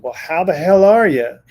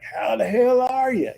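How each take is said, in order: First: Booming uncle greeting, louder; loud obnoxious uncle. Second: High, loud rowdy uncle greeting; loud obnoxious uncle. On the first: Medium voicing the dead uncle greeting her client loudly. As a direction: hail him like a rowdy uncle. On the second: Describing the late uncle's loud obnoxious greeting. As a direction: bellow it like the family's loudest uncle. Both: Retold or imitated. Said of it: "really loud, obnoxious".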